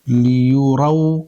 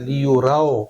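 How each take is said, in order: First: The final vowel sounds like a pure 'oo'. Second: The final vowel sounds like a mid 'o'. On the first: The speaker calls it right. "कैसे पढ़ेंगे?" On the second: The speaker calls it wrong. "मजहूल पढ़ना क्या होता है? ... इस तरह से नहीं पढ़ना है"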